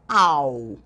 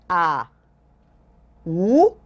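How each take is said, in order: First: The two vowels are joined without a pause. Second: The two vowels are separated by a pause. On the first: "Eu digo de uma só vez" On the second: "Aqui eu digo as letras separadas"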